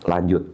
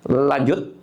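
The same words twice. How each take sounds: First: "Lanjut." low, as a statement; answering. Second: "Lanjut?" with a rising question tune; asking. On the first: Injured fighter answers the referee, "Lanjut." low and settled. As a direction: answer "Lanjut." in a much lower pitch. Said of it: "Saya bilang". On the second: Referee asks the injured fighter to go on, "Lanjut?" rising as a question. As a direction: ask "Lanjut?" with the end lifted. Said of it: "Dia cuma tanya". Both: Retold or imitated.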